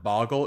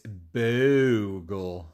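First: The first vowel is short, as in 'bog'. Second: The first vowel is long, as in 'boo'. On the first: The speaker calls it wrong. "I've been saying this wrong. I always called it Boggle" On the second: The speaker calls it right. "It's Boogle"

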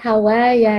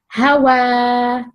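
First: The word ends with a 'ya' sound. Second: The word ends with a long 'a' sound. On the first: The speaker calls it wrong. "Not Hawaya, no" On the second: The speaker calls it right. "Hawa, not ya, okay?"

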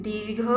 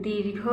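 Both takes have the same delivery.

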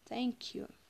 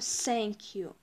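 First: The first sound is 'th' with the tongue out. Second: The first sound is a hissing 's'. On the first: The speaker calls it right. "язычок высовываем и говорим thank you" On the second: The speaker calls it wrong. "Мы не говорим thank you, не надо выговаривать первую букву s"

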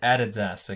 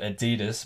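First: It is said the Australian way. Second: It is said the American way. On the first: "here in Australia, we pronounce it Adidas" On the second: "I know you American folks call it Adidas"

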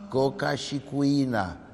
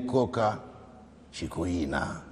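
First: The words are run together with no breaks. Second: The words are said as separate words. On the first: It names a drug shipment. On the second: It names two girls.

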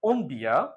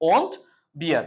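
First: The t sound in won't is dropped. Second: The t sound in won't is pronounced.

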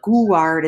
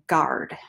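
First: A 'u' sound is voiced after the g. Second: No 'u' sound is voiced after the g. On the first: The speaker calls it wrong. "even though they have the letter U, you don't say it. So it's not guard" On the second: The speaker calls it right. "it's just guard"

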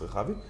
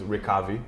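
First: The name is pronounced the Hebrew way. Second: The name is pronounced the English way. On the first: "in Hebrew it's Rechavi" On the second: "he says in English is Rechavi"

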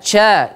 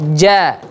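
First: The consonant is airy, like ch. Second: The consonant is clear and voiced. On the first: The speaker calls it wrong. "terlalu banyak memberikan angin... tidak ca" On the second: The speaker calls it right. "Dia murni ja"

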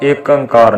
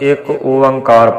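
First: The second word begins with an 'ang' sound. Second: The second word begins with an 'o' sound. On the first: The speaker calls it wrong. "ਨਹੀਂ ਪੜ੍ਹਨਾ" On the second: The speaker calls it right. "ਅਸੀਂ ਇੱਕ ਓੰਕਾਰ ਪੜ੍ਹਨਾ"

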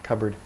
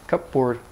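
First: The word is pronounced in a shortened, reduced form. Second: The word is pronounced with every part in full.

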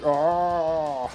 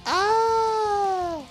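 First: It is a man's dying scream. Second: It is a woman's dying scream.

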